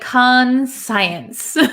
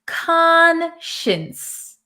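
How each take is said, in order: First: The second part sounds like 'science'. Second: The second part sounds like 'shins'. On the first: The speaker calls it wrong. "It looks like conscience. ... even though it looks like science here" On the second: The speaker calls it right. "We pronounce it conscience. ... we're going to say shins"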